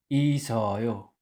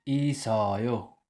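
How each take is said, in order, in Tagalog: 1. Ang tunog s ay dumadaloy nang maayos papunta sa susunod na pantig. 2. Ang tunog s ay dumadaloy nang maayos papunta sa susunod na pantig.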